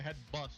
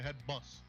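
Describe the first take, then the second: First: The final T of bust is pronounced. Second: The final T of bust is silent. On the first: The speaker calls it wrong. "you don't say head bust" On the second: The speaker calls it right. "the T is silent"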